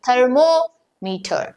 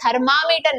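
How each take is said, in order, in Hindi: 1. 'ther' के बाद का स्वर 'oh' ध्वनि है। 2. 'ther' के बाद का स्वर 'ah' ध्वनि है। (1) "थर्मो यानी क्या? हीट" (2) "बहुत सारे लोग प्रोनाउंसिएशन गलत करते हैं, थर्मामीटर नहीं"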